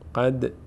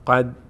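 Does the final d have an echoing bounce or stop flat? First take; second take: bounce; flat. First: The final d ends with a slight echoing bounce. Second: The final d stops flat with no bounce. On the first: The speaker calls it right. "مقداری دال میلرزه" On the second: The speaker calls it wrong. "قد نمیگیم"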